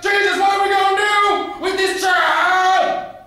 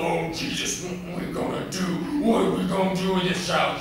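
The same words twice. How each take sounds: First: Frenzied scream. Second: High, worked-up fretting to himself; agitated self-talk. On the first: Father cries to Jesus about his child, frenzied screaming. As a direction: bellow it to heaven at full force. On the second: Angry Daddy mutters to himself about his child, agitated. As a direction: fret aloud in growing exasperation. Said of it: "he started muttering to himself". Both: Acted.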